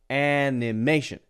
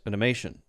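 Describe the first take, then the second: First: The first vowel is a clear, neutral a. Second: The first vowel is a reduced schwa. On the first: "instead of animation ... So the A is there" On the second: "If this were the schwa sound, it would be like this"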